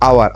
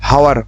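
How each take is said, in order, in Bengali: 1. শব্দটি স্বরধ্বনি দিয়ে শুরু। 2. শব্দটি h ধ্বনি দিয়ে শুরু। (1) "কিন্তু এখানে উচ্চারণ হবে আওয়ার" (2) "হাওয়ার কথা"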